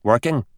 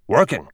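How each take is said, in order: First: "Working?" with a rising questioning tune; incredulous question. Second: "Working." with a falling, final tune; flat statement. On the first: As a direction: echo "Working?" as if you cannot believe it. Echoing the word in disbelief. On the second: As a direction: settle "Working." down as a dry verdict. Answering his own echo. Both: Acted.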